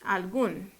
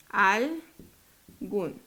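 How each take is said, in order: First: Said in the usual way. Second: "Algún" split as "al" and "gún", long gap; syllable by syllable. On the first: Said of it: "Veamos otra". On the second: Shown as a demonstration. Teacher divides the next example, "Algún" syllable by syllable. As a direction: break "Algún" into two separate syllables. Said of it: "Separémosla".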